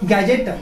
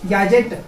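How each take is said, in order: Both takes have the same delivery.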